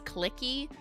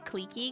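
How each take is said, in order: First: The first vowel sounds like in click. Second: The first vowel is said the French way. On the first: "clicky just sounds like I'm like talking about a mouse cursor" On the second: "I say cliquey ... that's just the French way"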